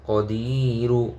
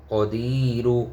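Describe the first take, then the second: No difference in how they are said.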